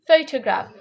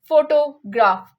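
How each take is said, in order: First: Only the first syllable is stressed and lengthened. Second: The later syllables are stressed as strongly as the first. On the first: The speaker calls it right. "मैंने उनको बहुत हल्का touch दिया" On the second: The speaker calls it wrong. "अगर मैं उनको भी ज्यादा टच देती तो मैं वैसे ही कहती, जो गलत है"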